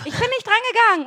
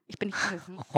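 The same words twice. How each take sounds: First: "Ich bin nicht rangegangen" pitched higher, pressed home with a firm fall on "rangegangen"; insistent repeat. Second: Dropped almost to a murmur; quiet insistence. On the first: Correcting her friend's guess, insistent higher "Ich bin nicht rangegangen". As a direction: hammer the point home a last time, higher. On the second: To her friend, first take of "Ich bin nicht rangegangen", quiet. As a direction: say it low and quiet, almost to yourself. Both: Shown as a demonstration. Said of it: "Nein, nein, nein".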